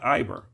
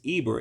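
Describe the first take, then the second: First: The word begins with an "eye" sound. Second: The word begins with an "ee" sound. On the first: The speaker calls it wrong. "it's not Iber" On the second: The speaker calls it right. "so it's Eber"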